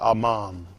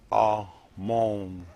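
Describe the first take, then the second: First: The last syllable has an 'ah' vowel. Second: The last syllable has an 'oh' vowel. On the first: It is the word said at the end of a prayer. The speaker calls it right. "We say Aman" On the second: It names an Egyptian deity. The speaker calls it wrong. "Amon is how you pronounce this one"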